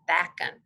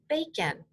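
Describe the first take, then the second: First: The first vowel is a short a sound. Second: The first vowel is a long a sound. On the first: The speaker calls it wrong. "try reading the word using the short out A sound" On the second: The speaker calls it right. "this time I'm going to put in the long sound of A"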